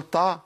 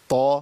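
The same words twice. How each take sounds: First: "طا" said wrong, light like "taa"; thin out the T and vowel of "طا"; weakened ط. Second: "طا" with a heavy ط and full back "aa"; emphatic ط with fatha. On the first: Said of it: "ينفعش أقول طا". ("طا" مرققة زي التاء) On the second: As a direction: make "طا" strong and heavy. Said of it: "الطاء المتحركة بفتح". ("طا" بتفخيم قوي) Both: Shown as a demonstration.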